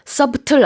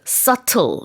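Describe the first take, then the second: First: The B is pronounced in the middle. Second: The B is left silent in the middle. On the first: The speaker calls it wrong. "subtle 아니고요" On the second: The speaker calls it right. "B 발음하지 않아요. 그래서 subtle 이렇게 발음을 합니다"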